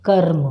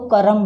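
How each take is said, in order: First: कर्म with a half r, kar-m, no vowel after r; the correct कर्म, r pronounced fast; right half r. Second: करम with a full r, three beats ka-ra-m; the mistaken करम, r given its own a; wrong full r. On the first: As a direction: say कर्म quickly, r swallowed into m. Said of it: "पर सही शब्द क्या है". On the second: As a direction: say करम with a vowel after र. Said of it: "अगर हम र पूरा लिखेंगे तो करम बोलेंगे". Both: Shown as a demonstration.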